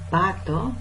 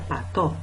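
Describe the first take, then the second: First: The stress is on the first syllable. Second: The stress is on the second syllable. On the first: "Ahí usé una diferencia de acentuación" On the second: "Ahí usé una diferencia de acentuación"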